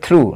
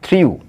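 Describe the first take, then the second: First: The vowel is a plain oo sound. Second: A y-glide comes before the oo sound. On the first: The speaker calls it right. "এর উচ্চারণটা হবে থ্রু" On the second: The speaker calls it wrong. "Not থ্রিউ"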